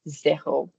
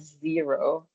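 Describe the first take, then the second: First: The first vowel is an 'ay' sound. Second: The first vowel is not an 'ay' sound. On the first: The speaker calls it right. "The little accent on it just makes it A, so it's more zero" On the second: The speaker calls it wrong. "It's not zero"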